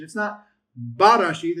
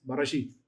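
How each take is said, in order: First: Barashith with a full first vowel, louder; wrong take. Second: Barashith with the first vowel clipped short; quick shortened be in Barashith. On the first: Teacher contrasting a wrong reading for class, full-vowel Barashith. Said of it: "it's Barashith". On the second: Teacher giving Hebrew students the right reading, shortened vowel. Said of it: "it just shortens the pronunciation". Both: Shown as a demonstration.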